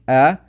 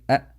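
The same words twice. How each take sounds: First: The vowel is given its full quality. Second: The vowel is shortened and weakened. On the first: The speaker calls it right. "instead of saying a" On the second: The speaker calls it wrong. "you say a or a, like this"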